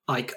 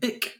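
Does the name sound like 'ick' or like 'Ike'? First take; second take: Ike; ick. First: The vowel sounds like the one in 'Ike'. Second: The vowel sounds like the one in 'ick'. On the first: The speaker calls it right. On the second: The speaker calls it wrong.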